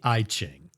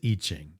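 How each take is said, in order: First: The first syllable sounds like 'eye'. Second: The first syllable sounds like 'ee'. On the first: The speaker calls it wrong. "if Apple made something, they'd call it the I Ching" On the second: The speaker calls it right. "but you pronounce it I Ching"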